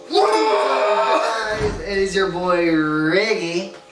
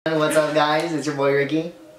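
First: It is said with high energy. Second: It is said with low energy.

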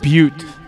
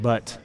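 First: The word is said the local way. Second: The word is said like 'but'. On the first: The speaker calls it right. "People mispronounce it a lot" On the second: The speaker calls it wrong. "They usually say it"

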